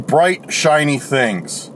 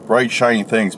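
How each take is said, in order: First: Slow and dreamy. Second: Said in the usual way. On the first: Shown as a demonstration. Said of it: "their intention of". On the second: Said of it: "I like that".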